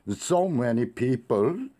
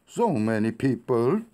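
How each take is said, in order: First: The pitch jumps up sharply at the end. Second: The same.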